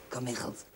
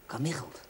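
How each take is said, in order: First: Whispered disbelieving repeat of the name; incredulous whisper. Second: Said in the usual way. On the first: Real, not acted. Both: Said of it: "Wie heet er nou Kamichelt".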